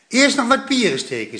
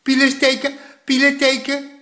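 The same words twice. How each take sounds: First: Grandpa says it right. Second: Put-on high toddler chant "Pielen steken" with l for r; "Pielen" lisped like a tiny child for "pieren"; little boy parroting "Pielen steken" with an l; toddler mispronunciation. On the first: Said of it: "zei opa". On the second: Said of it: "riep Poekie". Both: A narrator's reading.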